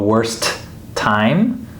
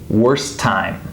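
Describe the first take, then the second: First: Both T sounds are released separately. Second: The two T sounds blend into one. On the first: The speaker calls it wrong. "We wouldn't go worst time" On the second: The speaker calls it right. "these T's kind of blend together"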